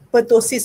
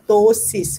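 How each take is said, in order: First: The initial P is sounded with a vowel after it. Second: The initial P is silent, starting with a T sound. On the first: The speaker calls it wrong. "The pronunciation not pertosis" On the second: The speaker calls it right. "Walaupun ada P kat situ"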